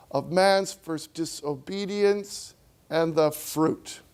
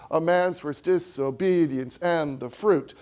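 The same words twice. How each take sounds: First: Slow, heavy stress on "man's first" in "Of man's first disobedience and the fruit"; Milton's own rhythm. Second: "A man's first disobedience and the fruit" squeezed into da-DUM; forced iambic. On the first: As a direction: let the strong opening beats land. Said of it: "what Milton does to the rhythm". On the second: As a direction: force the line into the meter. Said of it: "you gotta force it". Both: Shown as a demonstration.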